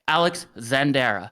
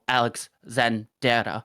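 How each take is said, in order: First: The R is said plainly, without a roll. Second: The R is said with a slight roll.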